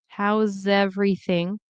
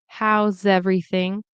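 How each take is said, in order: Both takes have the same delivery.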